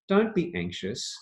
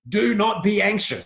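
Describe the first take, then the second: First: It sounds warm and encouraging. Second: It sounds stern and scolding.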